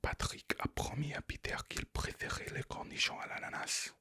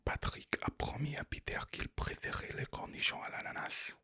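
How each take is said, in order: First: It is said in a whisper. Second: It is said in a whisper.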